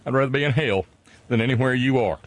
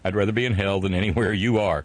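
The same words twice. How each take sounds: First: It is read in a Southern drawl. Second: It is read in a plain, neutral accent. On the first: The speaker calls it right. "you got to say it in an entirely different fashion" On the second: The speaker calls it wrong. "I apologize for not getting it right the first time"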